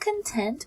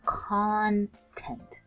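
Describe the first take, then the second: First: The stress is on the second syllable. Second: The stress is on the first syllable. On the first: Feeling happy and satisfied. "Instead of emphasizing the tent" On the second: What is inside something. "we emphasize the con"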